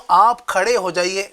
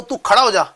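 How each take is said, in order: First: Polite request. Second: Blunt informal command. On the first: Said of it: "اور میں کہوں". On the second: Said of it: "میں کہوں". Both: Shown as a demonstration.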